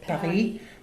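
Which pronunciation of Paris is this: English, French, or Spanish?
French. It is said with a French pronunciation. "Click on French"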